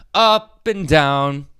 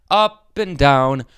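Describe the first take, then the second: No difference in how they are said.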